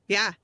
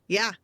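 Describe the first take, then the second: Both takes have the same delivery.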